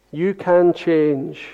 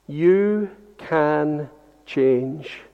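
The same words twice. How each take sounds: First: "can" given the weight, not "You"; stress on CAN. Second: "You" drawn out soft and slow with a rise; stress on YOU. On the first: Preacher shifting weight onto "can" for the congregation. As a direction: press on "can" in "You can change". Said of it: "but on the can". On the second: Preacher gently hitting "You" for the congregation. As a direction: lean slowly on "You", then "can change" quietly. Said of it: "put all the emphasis on the word you". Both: Shown as a demonstration.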